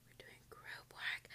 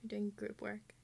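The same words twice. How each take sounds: First: Slow, much softer whisper; horrified whisper. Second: Said in the usual way. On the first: Real, not acted. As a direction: whisper it like dreadful news. Repeats news in horror. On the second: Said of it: "repeated whispered".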